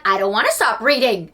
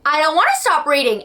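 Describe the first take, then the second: First: Said in the usual way. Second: Higher, whining protest; whiny. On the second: Retold or imitated. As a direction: whine it like a kid refusing to stop. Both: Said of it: "So I'm like".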